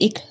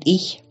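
First: The word ends with a hard k sound. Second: The word ends with a soft ch sound. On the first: This is the local dialect form. "Wir sagen zum Beispiel ich statt" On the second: This is the standard form. "statt ich"

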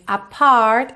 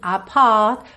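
First: The r sound is clearly pronounced. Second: The r sound is dropped, British style. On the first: "Ele não diz apart" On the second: "e sim apart, porque ele é britânico"

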